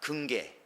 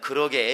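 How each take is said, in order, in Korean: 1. 줄여서, 남부 방언으로 말합니다. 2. 표준 한국어로, 전체 형태로 말합니다. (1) "저쪽 남쪽에서는 그렇게 말하고 말을 길이니까 짧게 합니다" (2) "보통은 긍정할 때 누군가 말하면 그러게 이래야 되는데"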